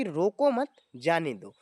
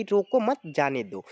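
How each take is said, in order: First: "रोको मत" together, a break, then lower "जाने दो"; pause after मत. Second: "रोको" set off, then "मत जाने दो" run together; pause after रोको. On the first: Teacher gives the second example to students, pause after "मत". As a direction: hold the comma after "मत", drop on "जाने दो". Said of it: "रोको मत के बाद जो लगा है ना". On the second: Teacher reads the comma example to students, pause after "रोको". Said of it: "रोको के बाद जो एक छोटा सा कॉर्नर जैसे line". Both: Shown as a demonstration.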